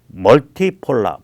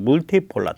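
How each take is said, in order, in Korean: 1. 첫 모음은 영어식 'uh' 소리예요. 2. 첫 모음은 독일어식 'oo' 소리예요.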